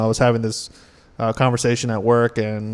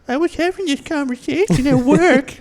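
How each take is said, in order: First: It is said in a normal voice. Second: It is said in a silly mocking voice.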